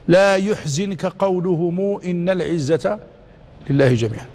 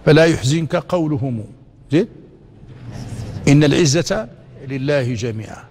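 First: It runs on with no pause after قولهم. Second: There is a pause after قولهم. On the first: The others were the ones saying glory belongs to God. The speaker calls it wrong. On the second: The listener is told not to grieve; glory belongs to God. The speaker calls it right.

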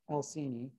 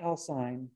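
First: The final vowel is sounded as its own syllable. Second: The final vowel is silent, dropping a syllable. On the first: The speaker calls it right. "Always pronounce that terminal E" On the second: The speaker calls it wrong. "not Alcine"

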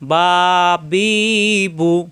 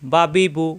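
First: The vowels are drawn out long. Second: The vowels are short and quick.

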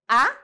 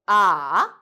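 First: The pitch rises from middle to high. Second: The pitch dips low and then rises. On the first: The speaker doubts something or wants an answer. "And the second tone" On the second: The speaker is confused and doubtful. "and then third tone"

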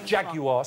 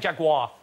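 First: The word is said with three syllables. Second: The word is said with two syllables. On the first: The speaker calls it right. "three syllables over here" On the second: The speaker calls it wrong. "You're saying Jaguar"

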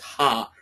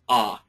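First: The vowel starts with a breathy h sound. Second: The vowel starts with no h sound. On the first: The speaker calls it right. "I pronounce it as ha" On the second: The speaker calls it wrong. "rather than just ah"

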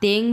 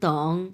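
First: The vowel sounds like 'e' before the ng. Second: The vowel sounds like 'o' before the ng. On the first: The speaker calls it wrong. "অনেকে এটাকে তেং বলে" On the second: The speaker calls it right. "এটা হচ্ছে তং"

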